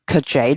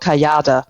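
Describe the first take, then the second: First: The name is pronounced with English sounds. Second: The name is pronounced with German sounds. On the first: "is the English name" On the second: "I pronounce it in German"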